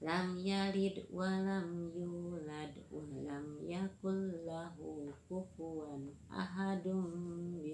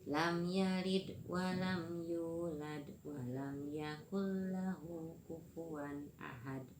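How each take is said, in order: First: The last word keeps its vowel and runs on. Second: The last word stops short on its final consonant. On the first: The reciter joins it to what follows. "kalau disambung semua harokat yang terakhir dihidupkan semua" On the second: The reciter stops at the end of the chapter.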